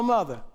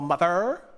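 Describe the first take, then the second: First: The final R is dropped to a schwa. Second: The final R sound is clearly pronounced. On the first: The speaker calls it right. "you go mother" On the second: The speaker calls it wrong. "you don't go mother"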